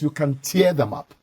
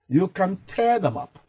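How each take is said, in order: First: 'Tear' rhymes with 'ear'. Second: 'Tear' rhymes with 'air'. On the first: It refers to drops from the eyes. The speaker calls it wrong. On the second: It means to rip something apart. The speaker calls it right.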